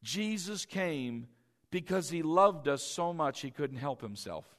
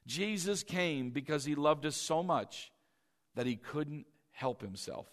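First: Jesus came, slowly, then a pause: stress on "Jesus"; slow emphatic dictation. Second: "Jesus came" repeated, softer and lower, trailing off on "he couldn't help himself". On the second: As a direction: repeat it softly so it sinks in. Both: Shown as a demonstration. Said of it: "I want you to write this down".

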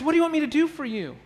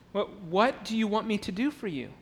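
First: Higher, fast, lively "What do you want me to do for you?"; eager question. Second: Quiet question. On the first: Jesus inviting the blind men to ask, quick and eager. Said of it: "So he says". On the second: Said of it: "it's a curious question". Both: Shown as a demonstration.

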